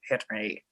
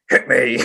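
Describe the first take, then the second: First: It is said in a non-Joker voice. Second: It is said in a Joker-like put-on voice. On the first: The speaker calls it right. "It was more like a hit me" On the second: The speaker calls it wrong. "that was the Joker. I was doing the wrong voice"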